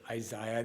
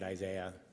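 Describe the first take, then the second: First: It is said with an English pronunciation. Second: It is said with an American pronunciation. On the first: "that's how the English would pronounce it" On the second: "I pronounce it Isaiah. ... American pronunciation"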